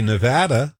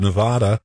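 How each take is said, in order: First: Nevada the local Utah way, middle vowel like "add"; Utah-style Nevada. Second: Nevada as "ne-VAH-da", the non-local way; out-of-towner Nevada. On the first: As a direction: say Nevada with a flat short A, as in "add". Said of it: "I've learned to say Nevada". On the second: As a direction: say Nevada with an open "ah" in the middle. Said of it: "instead of Nevada". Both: Shown as a demonstration.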